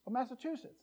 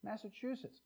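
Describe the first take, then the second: First: MASSACHUSETTS as Massa-TOO-setts, softer and higher; Texan mispronunciation. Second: MASSACHUSETTS with a clear CHOO, softly; soft MASSACHUSETTS, CH sounded in the third syllable; correct pronunciation. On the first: Mock Texan echoing the answer, Massa-TOO-setts for MASSACHUSETTS. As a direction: echo MASSACHUSETTS with TOO replacing CHOO. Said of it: "That's the way they say it". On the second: Local answering a Texan, soft MASSACHUSETTS with CHOO. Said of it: "they can't say Massachusetts". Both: Retold or imitated.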